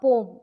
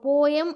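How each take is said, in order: First: The word is said with one syllable. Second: The word is said with two syllables. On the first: The speaker calls it right. "கரெக்டான pronunciation" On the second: The speaker calls it wrong. "போயம் அப்படின்னு நீங்கள் சொல்லிட்டு இருக்கீங்கன்னா அதை change பண்ணிக்கோங்க"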